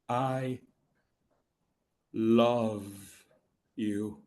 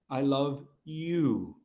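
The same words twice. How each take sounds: First: The stress falls on the middle word. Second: The stress falls on the last word. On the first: The feeling itself is being revealed. "there's that middle word. You know that word. That's the magic word" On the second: The listener, not someone else, is the one loved. "Not Monica"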